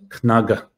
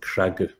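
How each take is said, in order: First: The word starts with a clear kn sound. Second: In the Ulster accent, the n becomes r.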